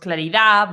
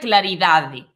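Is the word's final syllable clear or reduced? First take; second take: reduced; clear. First: The final syllable is relaxed and partly swallowed. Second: The final syllable is pronounced fully and clearly. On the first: This is how people say it in speech. "relaxamos a pronuncia ao final da palabra" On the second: This is the written form. "Sería claridade"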